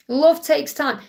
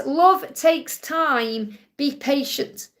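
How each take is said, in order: First: Said in the usual way. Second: Slow reading. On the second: Shown as a demonstration. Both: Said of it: "It says".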